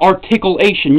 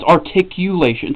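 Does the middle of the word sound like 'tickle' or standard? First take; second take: tickle; standard. First: The middle part sounds like the word 'tickle'. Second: The middle part is said in the standard way. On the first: The speaker calls it wrong. "You're not you're not tickling something" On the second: The speaker calls it right. "It's articulation"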